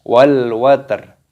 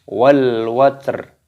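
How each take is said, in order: Both takes have the same delivery.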